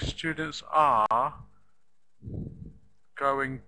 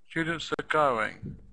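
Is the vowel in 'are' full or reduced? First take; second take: full; reduced. First: The word 'are' has a full vowel. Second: The word 'are' has a reduced vowel. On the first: The speaker calls it wrong. "We don't say the full vowel sound" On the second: The speaker calls it right. "we reduce them, we make them shorter"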